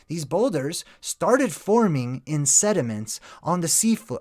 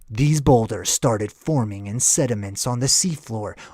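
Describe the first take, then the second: First: It is read in a plain, normal voice. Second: It is read in a put-on performing voice.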